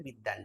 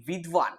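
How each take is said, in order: First: বিদ্বান as "biddan", doubled d; everyday Bengali pronunciation. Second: বিদ্বান as "vidvan", v sounded; Sanskrit-style pronunciation. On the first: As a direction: drop the v in বিদ্বান, Bengali style. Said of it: "আমরা বাংলায় সেটাকে বিদ্বান বলি". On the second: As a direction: keep the v audible in বিদ্বান. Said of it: "এই উচ্চারণটা কিন্তু হওয়া উচিত". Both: Shown as a demonstration.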